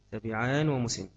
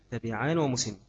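No difference in how they are said.

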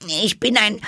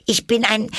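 First: Put-on high girl, stalling a second time; second faltering try; unsure Alice again. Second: Put-on hesitant girl, high and stalling; first faltering try; unsure Alice. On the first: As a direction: falter once more, no better. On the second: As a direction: start the sentence and lose it. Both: A narrator's reading. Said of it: "etwas unsicher".

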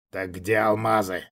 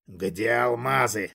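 First: Lower, menacing repeat of the question; a lightly voiced demon pressing again; demonic whisper. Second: Slow, menacing demonic hiss; demanding hiss. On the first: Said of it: "повторил свой вопрос Заболоцкий". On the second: Acted. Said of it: "требовательно прошипел демон".

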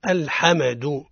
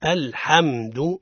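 First: "الحمد" with an extra vowel after the meem, al-ħame-du; mock error: bounce the meem in "الحمد"; wrong qalqala on meem. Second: "الحمد" slowly, meem closed without bounce; correct meem. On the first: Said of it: "هذا خطأ". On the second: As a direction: say "الحمد" slow and smooth, meem held still. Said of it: "الصواب هو". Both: Shown as a demonstration.

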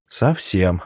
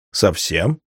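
First: СОВСЕМ as a firm answer, falling at the end; confirming. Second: СОВСЕМ as a question, rising at the end. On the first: (утвердительное «совсем» с понижением тона) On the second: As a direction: lift the end of "совсем" in disbelief. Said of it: "удивился он". (вопросительное «совсем» с подъёмом тона) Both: A narrator's reading.

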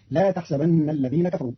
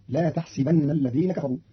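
First: Said in the usual way. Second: تحسبن with kasra on the س, tahsibanna; Qalun reading. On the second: Shown as a demonstration. (تحسبن بكسر السين) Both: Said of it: "بكسر السين".

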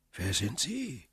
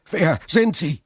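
First: Distant cautious voice. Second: Much higher and louder urgent question; eager question. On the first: Hidden old prisoner asks back from the tunnel, soft and guarded. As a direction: ask it back warily from far below. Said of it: "fragte die Stimme". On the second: Prisoner urgently asks the hidden stranger, loud and high. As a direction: demand it breathlessly. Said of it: "vor Schreck die Haare". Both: A narrator's reading.

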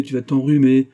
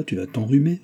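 First: Loud, high parroted scolding; merry mockery. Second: Higher-pitched, brisk warning; mild maternal reproof, raised pitch; motherly scolding. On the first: Antonine mimicking mother's fussing about colds, merry mockery. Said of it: "dit Antonine en riant". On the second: Mother telling daughter to keep cloak on, scolding. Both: A narrator's reading.

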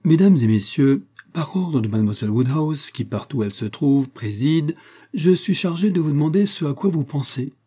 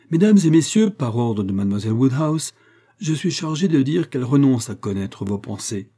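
First: Lightly raised herald's call to the company; mock announcement. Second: Louder announcement. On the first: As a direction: announce it with playful pomp. (annonce mi-solennelle, voix peu forcée) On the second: Acted. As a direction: call the room to order, trying harder. (annonce plus forte et plus aiguë, comme un héraut) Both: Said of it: "Je vais m'y prendre mieux".

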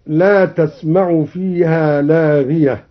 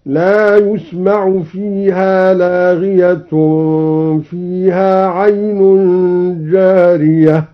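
First: Said in the usual way. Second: تسمع becomes يسمع, said yusma'u with a rounded yaa, and لاغية ends in u, slow recitation; passive yusma'u reading. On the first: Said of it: "بياء مضمومة". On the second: Shown as a demonstration. Teacher demonstrates al-Duri's passive reading, slow recitation. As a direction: recite yusma'u fiha laghiyatun slowly. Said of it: "هكذا".

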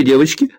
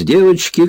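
First: Put-on rising, teasing Irish-accented call to the girls. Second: High, loud playful call; cheerful shout. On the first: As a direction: toss девочки to the room with a lilt. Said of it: "ирландским акцентом". (игривый ирландский акцент) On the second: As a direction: rouse the girls with glee. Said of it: "весело крикнула". (весёлый звонкий выкрик) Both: A narrator's reading.

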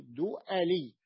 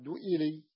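First: دؤلي drawn out slowly with a on the hamza, "du'ali"; middle fatha. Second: دؤلي said with i on the hamza, "du'ili"; wrong vowel. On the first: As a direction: open the hamza of دؤلي to a slow, clear a. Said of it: "بفتح عين الكلمة". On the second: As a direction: put a kasra on the hamza of دؤلي. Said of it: "لم يقل أحد دؤلي". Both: Shown as a demonstration.

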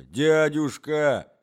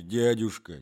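First: Протяжное громкое «дядюшка!» с мольбой; растяни «дядюшка!» умоляюще и громче; отчаянная мольба. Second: Said in the usual way. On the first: Acted. Мольба племянника. (протяжное умоляющее «дядюшка!»)

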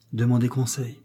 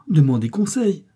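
First: Said in the usual way. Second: Higher, louder appeal; pleading. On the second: A narrator's reading. Lise begging her stepmother for time, pleading. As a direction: plead urgently, voice lifted.

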